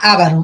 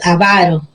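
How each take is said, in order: First: The stress is on the first syllable. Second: The stress is on the second syllable. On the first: It names an ethnic group living in the Caucasus. "esdrújula" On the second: It describes a stingy, greedy person. "que es grave"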